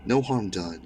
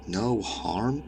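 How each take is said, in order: First: Said in the usual way. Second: "No harm?" as a disbelieving rising question; incredulous echo. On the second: A narrator's reading. Intruder to scientist, "No harm?" rising in disbelief. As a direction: echo "No harm?" slowly lifting at the end.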